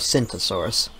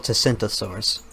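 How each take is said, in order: First: The name starts with an S sound. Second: The name starts with a pronounced T sound.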